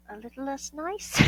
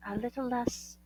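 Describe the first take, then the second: First: Nice lifted high with a rising tune; stress on nice. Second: Said in the usual way. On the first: Shown as a demonstration. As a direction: lean on nice coyly.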